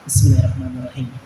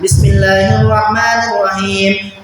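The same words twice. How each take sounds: First: It is said quietly and softly. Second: It is said loudly and clearly.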